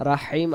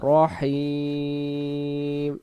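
First: রাহিম said quickly with an open "ra"; mistaken pronunciation. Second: রহিম with a rounded "ro" and very long "heem"; correct recitation. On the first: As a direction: say রাহিম short and unchanted, starting "ra". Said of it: "আমরা বলবো না". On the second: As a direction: slowly chant রহিম, holding the last syllable. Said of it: "রাহিম আমরা বলবো না". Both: Shown as a demonstration.

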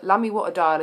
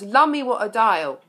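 First: Said in the usual way. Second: Louder, shouted Lummy; a playful mock shout of Lummy. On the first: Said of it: "best line of any song ever". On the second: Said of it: "The Lord Mayor of London shouts".

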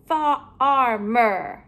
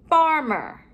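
First: FARMER in stretched, separate sounds, falling at the end; broken apart. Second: Said in the usual way. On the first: Shown as a demonstration. Teacher comparing word endings for pupils, sounds pulled apart.

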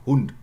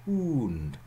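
First: Hund clipped, the u over in a flash; short Hund. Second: Hund with a long drawn u; lengthened Hund. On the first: Lecturer contrasting the short form for students, clipped. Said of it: "much easier to be understood, than Hund". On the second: Lecturer showing students the lengthened form, drawn out. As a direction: hold the vowel of Hund long. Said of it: "gaining articulation time, you lengthen". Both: Shown as a demonstration.

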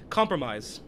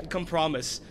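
First: Said in the usual way. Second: Compromise as "kum-PROM-iss", stress on the second syllable; mispronounced. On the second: Shown as a demonstration. Player tripping over the word compromise, mispronouncing it. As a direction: stumble into compromise with a wrong middle stress. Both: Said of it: "I almost said".

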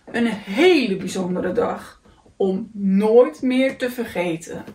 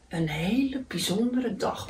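First: Slow, savouring story ending; contented. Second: Soft, understated grumble; grumbling. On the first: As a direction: draw it out with deep satisfaction. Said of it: "dacht hij tevreden". (tevreden en langzaam, als slot van een verhaal) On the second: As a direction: grumble it lightly to yourself. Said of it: "mopperde hij". (zachtjes mopperend) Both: A narrator's reading.

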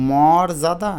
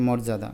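First: মর্যাদা stretched hard with open "mawr"; forced pronunciation. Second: মর্যাদা said lightly as "mor-jada"; light pronunciation. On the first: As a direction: overdo the first syllable of মর্যাদা, slowly. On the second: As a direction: ease through মর্যাদা without force. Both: Shown as a demonstration. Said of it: "একটু আলতো করে বলবে".

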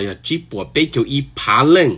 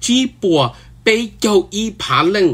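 First: Said in the usual way. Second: จีบปัว ไปเจ้าอีผาเล่ง pitched high, with a break after จีบปัว; amazed repeat. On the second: Real, not acted. Repeats figure, then says wow. (hais จีบปัว ไปเจ้าอีผาเล่ง nrov siab, xav tsis thoob)

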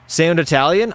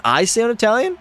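First: Said in the usual way. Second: Italian pitched up in disbelief; surprised. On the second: Real, not acted. Streamer surprised by chat comment, pitched-up question. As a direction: repeat the question, amazed. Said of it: "I thought I sounded more, uh, French".

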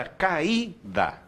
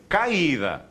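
First: "caída" slowly split as ca-Í-da, stress on the Í; syllables separated. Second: "caída" with A and I joined in one syllable, CAI-da; wrongly run together. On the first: Teacher showing students the hiatus, "caída" slowly pulled apart as ca-Í-da. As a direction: break "caída" into a clear hiatus, holding the Í. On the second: Teacher showing what it is not, "caída" run together as CAI-da. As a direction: glide "caída" into a diphthong, stressed CAI. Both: Shown as a demonstration. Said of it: "não é junto".

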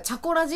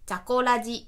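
First: Said in the usual way. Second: Mock text-to-speech deadpan on one level pitch; imitated monotone reading. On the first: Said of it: "例えば、チャコラジって一単語読ませる". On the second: Host showing how free read-aloud software says the show title, monotone. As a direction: read it like a kid who is bad at reading aloud. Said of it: "音読下手くそな子供が読んだみたいな".

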